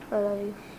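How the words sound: It is said in an uninterested tone.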